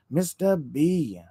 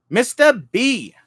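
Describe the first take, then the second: First: Said in the usual way. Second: High, loud, slow call of the name; scream. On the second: Real, not acted. Streamer screams a greeting to a chat viewer, high and loud. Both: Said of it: "Sorry, I screamed".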